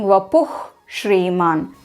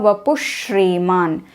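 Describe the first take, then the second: First: Vapuh keeps its final h, separate from shriman. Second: The h becomes sh, merged into shriman. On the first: The words are said separately. "instead of saying vapuh shriman" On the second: The words are recited together continuously. "I said vapushriman"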